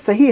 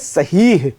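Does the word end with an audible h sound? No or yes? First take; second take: no; yes. First: The word ends on a plain long vowel. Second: The word ends with an audible h sound. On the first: The speaker calls it wrong. "वो लफ्ज़ असल में सही है ही नहीं" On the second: The speaker calls it right. "वो लफ्ज़ है सहीह"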